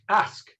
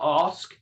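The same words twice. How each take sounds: First: "ask" said higher as the correct reading; teacher corrects "ask", lifting it up; right way. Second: "ask" said as the wrong reading, level and plain; teacher shows how not to say "ask". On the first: Teacher to Barbara, correcting the word, higher "ask". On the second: Teacher to class, the wrong "ask", plain and level. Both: Shown as a demonstration. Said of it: "Not ask".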